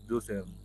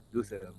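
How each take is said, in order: Both takes have the same delivery.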